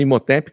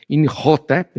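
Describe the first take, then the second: First: The name is said plainly, without a throat sound. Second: The name is said with a guttural throat sound. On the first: This is the easier everyday pronunciation. "A gente fala Imhotep, que fica mais fácil" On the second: This is the original pronunciation. "se a gente for da pronúncia correta"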